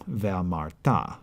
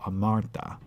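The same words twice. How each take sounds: First: Ve'amarta with the stress moved onto the final ta. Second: Amarta with stress on the second to last syllable, ta said soft; penultimate stress. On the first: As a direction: push the weight to the end of ve'amarta. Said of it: "the accent is on the final syllable". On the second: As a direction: lean on the mar in amarta. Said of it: "regularly the accent is second to last syllable". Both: Shown as a demonstration.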